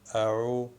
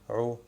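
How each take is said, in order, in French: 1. Une consonne de gorge contractée précède la voyelle. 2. La voyelle suit sans consonne de gorge.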